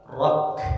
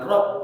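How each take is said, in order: First: The final k releases a puff of breath. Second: The final k is clipped with no breath. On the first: The speaker calls it right. "ada nafas berhembus" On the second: The speaker calls it wrong. "bukan rok"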